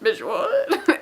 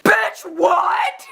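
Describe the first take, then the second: First: Baffled reaction. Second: High, loud incredulous squeal; retold shocked outburst; shocked disbelief. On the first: Retold or imitated. Fans' baffled reaction, acted. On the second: Retold shocked reaction to tweet.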